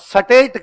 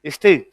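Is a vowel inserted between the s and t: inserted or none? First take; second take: inserted; none. First: A vowel is inserted between the s and t. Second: The s and t are joined without a vowel. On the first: "वो बिट्टा कहता" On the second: "नहीं"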